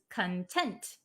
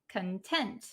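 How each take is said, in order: Both takes have the same delivery.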